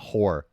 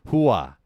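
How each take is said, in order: First: It is said in a plain, ordinary accent. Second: It is said in a Sopranos New Jersey accent.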